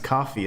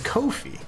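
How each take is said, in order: First: It is said like the drink, coffee. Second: It is said to rhyme with no fee. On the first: The speaker calls it wrong. "I thought for the longest time it was coffee" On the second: The speaker calls it right. "apparently the way you pronounce it is Kofi"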